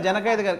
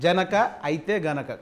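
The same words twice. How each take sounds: First: The title is run together without a pause. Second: The title is said with a short pause inside. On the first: The title is hard to understand. "ముందు ఏ cinema అంటే" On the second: The title becomes clear. "కొంచెం ఆగితే clarity ఉంది"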